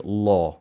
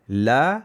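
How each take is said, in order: First: The vowel is heavy and full. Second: The vowel is light and thin. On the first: "jadi La" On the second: "La nipis"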